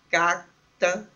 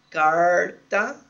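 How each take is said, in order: First: The r is said as a quick flap. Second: The r is said as in caipira speech. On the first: "como em algumas partes de Curitiba, um flápio volar" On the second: "como na variedade caipira"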